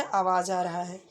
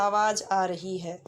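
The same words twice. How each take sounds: First: Said in the usual way. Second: Slow, stressed correct form; correct usage. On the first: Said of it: "तो नहीं बोलते". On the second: Shown as a demonstration. Teacher showing students the correct feminine form, slow and stressed. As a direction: stretch out आवाज़ आ रही है slowly, leaning on आवाज़. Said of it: "जैसे हम बोलते हैं ना".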